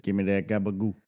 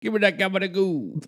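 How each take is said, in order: First: Low, soft mock New York Italian; New York Italian accent. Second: High-pitched mock New York Italian; New York Italian accent. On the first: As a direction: mutter it in mock Italian-American. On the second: Co-host echoes the gabagoo line, high New York Italian accent. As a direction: squeak it out in hammed-up Italian-American. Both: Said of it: "Italian accents are from New York".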